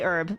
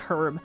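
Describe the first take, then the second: First: The word begins with no H sound. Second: The word begins with a clear H sound. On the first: "they don't say the H in herb" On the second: "you overpronounce the H"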